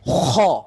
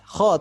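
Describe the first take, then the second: First: The throat rasp is harsh and strongly overdone. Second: The throat rasp is clearly audible but moderate. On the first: The speaker calls it wrong. "itu terlalu berlebihan" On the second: The speaker calls it right. "terdengar suara sereknya, tapi tidak berlebihan"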